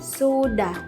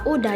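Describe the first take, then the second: First: The word starts with an 's' sound. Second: The word starts with a vowel sound. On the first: The speaker calls it right. "dilengkapi dengan bunyi S di awal kata" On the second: The speaker calls it wrong. "mengalami penghilangan bunyi konsonan S"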